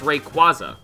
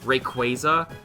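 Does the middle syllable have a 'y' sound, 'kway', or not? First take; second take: no y; kway. First: The middle syllable has no 'y' sound. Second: The middle syllable sounds like 'kway'. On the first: This follows the spelling. The speaker calls it right. "It's Rayquaza" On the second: This is how the show says it. The speaker calls it wrong. "I hate that. ... there would be a Y in his name if it was Rayquaza"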